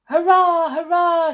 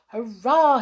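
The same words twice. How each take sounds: First: High, loud hurrahs; shouted cheer. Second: Brief, mildly raised hurrah; private cheer. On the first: Skip celebrating the getaway, triumphant shout. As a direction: cheer at full voice. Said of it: "shouted Skip". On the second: Hop spotting the stop wheel, contained cheer. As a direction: cheer to yourself, short of shouting. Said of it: "he thought". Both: A narrator's reading.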